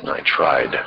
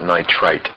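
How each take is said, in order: First: Nitride ending in a voiced d, falling; correct "-ide" ending. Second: Nitrite ending in a crisp t; wrong "-ite" ending. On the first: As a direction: finish nitride on a longer vowel and soft d. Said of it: "It's nitride". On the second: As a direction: finish nitrite on a short sharp t. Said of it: "That's not nitrite". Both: Shown as a demonstration.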